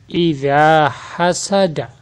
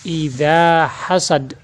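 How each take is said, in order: First: The final vowel ending is pronounced. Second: The final vowel ending is dropped. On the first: This is the full written form. "Kalimat asli" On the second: This is how it is read when stopping. "cara membacanya"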